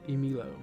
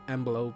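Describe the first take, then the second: First: The middle of the name has an 'i' vowel. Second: The middle of the name has a 'b' consonant. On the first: The speaker calls it right. "you're supposed to pronounce Emilo" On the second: The speaker calls it wrong. "I think I pronounced it Emblo"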